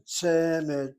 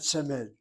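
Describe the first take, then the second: First: Semed with the first syllable hit hard and loud; loud, drawn-out first syllable in Semed; accent on first syllable. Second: Semed wrongly accented on the last syllable, se-MED; short first syllable in semed, weight moved to -med. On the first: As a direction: punch the SE of Semed, leave -med light. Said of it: "receives the accent". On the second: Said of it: "not semed". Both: Shown as a demonstration.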